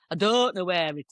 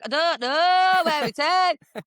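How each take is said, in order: First: A touch of dopey northern English; ditzy northern English. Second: Drawn-out, high, louder northern English whine; hammed-up ditzy northern English, stretching the vowels; [name]. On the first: Retold or imitated. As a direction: lightly imitate a ditzy northern English girl. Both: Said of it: "really ditzy anyway and really northern".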